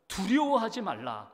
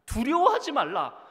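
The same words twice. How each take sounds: First: Said in the usual way. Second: 두려워하지 말라 cried out higher and louder; 두려워하지 말라를 높고 크게 외치듯; loud proclamation. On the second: Shown as a demonstration. (두려워하지 말라, 회중에게 힘차게 선포)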